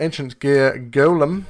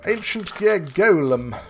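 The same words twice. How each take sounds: First: It is said in his normal voice. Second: It is said imitating Crowler's voice.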